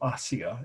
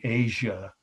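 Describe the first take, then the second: First: The word is said with Turkish pronunciation. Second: The word is said with English pronunciation.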